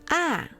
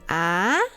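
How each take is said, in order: First: The pitch drops sharply from high to low. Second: The pitch rises like a question. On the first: "Think of telling your dog to sit when you use the fourth tone" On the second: "The second tone is like when you are surprised by something"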